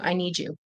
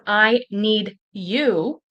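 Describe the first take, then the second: First: The words run together and the middle sound changes. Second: Each word is said separately and clearly. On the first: "it can turn into" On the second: "instead of"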